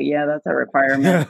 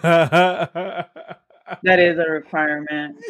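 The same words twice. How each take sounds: First: Said in the usual way. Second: Slow, laughing repeat. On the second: Retold or imitated. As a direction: savor it through laughter. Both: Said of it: "And I was like".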